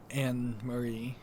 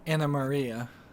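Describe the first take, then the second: First: The name is said with three syllables. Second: The name is said with five syllables. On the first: The speaker calls it wrong. "I've been pronouncing it wrong" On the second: The speaker calls it right. "Anna Maria, not Anne Marie"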